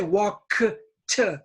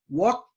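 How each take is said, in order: First: The K and T are released separately. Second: The K and T merge into one sound. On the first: The speaker calls it wrong. "don't say walk t. It's not two sounds" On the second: The speaker calls it right. "It's one sound"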